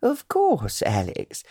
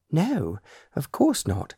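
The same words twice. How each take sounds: First: High, delighted "Of course, Alex."; light up with eager delight; pleased surprise. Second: Stiff, slow and awkward; stilted voice. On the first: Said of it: "a slight flush to her cheeks as she answered". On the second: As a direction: say it stiffly, ill at ease. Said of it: "in a stilted voice". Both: A narrator's reading.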